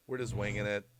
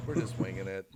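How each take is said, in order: Both takes have the same delivery.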